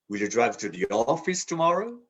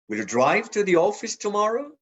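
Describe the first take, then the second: First: The stress falls on the word office. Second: The stress falls on the word drive. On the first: The question is whether the destination is the office. "To the office?" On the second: The question is about driving rather than taking the bus. "drive, not take the bus"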